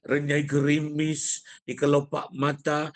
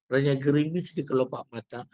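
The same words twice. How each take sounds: First: Slow, louder poetic declamation; slightly raised intonation. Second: "renyah gerimis di kelopak mata" run on evenly; unvaried poem reading. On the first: Teacher showing intonation going up a little, declaimed verse. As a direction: stretch "Renyai gerimis di kelopak mata" and project it. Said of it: "naik sikit". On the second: Teacher showing a poem read without intonation, unvaried reading. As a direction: read it straight through without stretching words. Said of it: "intonasi naik ke tak ada?". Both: Shown as a demonstration.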